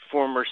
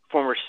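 No difference in how they are said.

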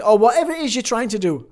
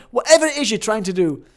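First: Passionate build at the end of a list. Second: Higher, louder, emphatic passion. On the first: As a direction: swell into it with conviction. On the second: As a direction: punch WHATEVER and project it. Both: Shown as a demonstration. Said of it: "I'm doing this with passion".

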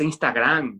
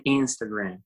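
First: "Instagram" read as Spanish, ins-ta-GRAM; slow, hispanicised "Instagram"; Spanish pronunciation. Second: "Instagram" said the English way; "Instagram" with English sounds inside Spanish; English pronunciation. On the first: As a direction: say "Instagram" with Spanish vowels, stress at the end. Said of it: "se dice Instagram". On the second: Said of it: "uno pronuncia todo en inglés". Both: Shown as a demonstration.

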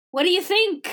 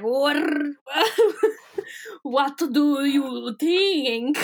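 First: Said in the usual way. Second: Very slow, drawn-out Transylvanian voice; Transylvanian accent. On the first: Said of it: "he hears a voice that's like". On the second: Acted. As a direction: stretch it out like a hammy Transylvanian vampire.

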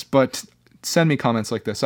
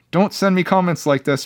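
First: Said in the usual way. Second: Higher-pitched playful plea; playfully pleading, pitched up; mock protest. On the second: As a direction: pretend to tell him off. Mock protest, then reversed.

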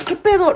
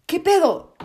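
First: Louder shock. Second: Shocked. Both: Real, not acted. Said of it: "estoy en shock".

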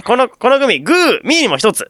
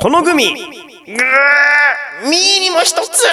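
First: Said in the usual way. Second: High shouted pun with a long drawn-out "guu"; hammed-up pun. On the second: Shown as a demonstration. Host performs listener Judy's gummy pun, hammed-up high shout. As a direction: ham it up high, stretching the middle right out.

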